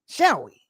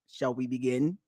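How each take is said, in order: First: It is said in his normal voice. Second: It is said in a Hellraiser villain voice.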